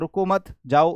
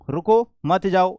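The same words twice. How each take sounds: First: There is a pause after मत. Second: There is a pause after रुको.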